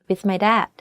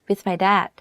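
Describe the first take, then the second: Both takes have the same delivery.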